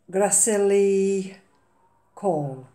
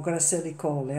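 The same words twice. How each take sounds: First: GRACILLI Call drawn out slowly, Call as one syllable; tentative pronunciation. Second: "Gracilli Calli" with an extra -ee syllable ending Calli; "Calli" ending in an added ee sound; alternative pronunciation. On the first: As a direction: say "Gracilli Call" unsurely, ending on a single-syllable Call. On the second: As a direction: offer "Gracilli Calli" as another guess, two syllables in Calli. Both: Real, not acted. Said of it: "not sure how you pronounce these".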